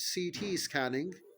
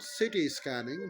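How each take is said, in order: First: The two letters are said as separate letters. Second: The two letters blur into one word. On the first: The speaker calls it right. "It's C T scanning" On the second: The speaker calls it wrong. "it's not city scanning. Most of the people do pronounce it wrong"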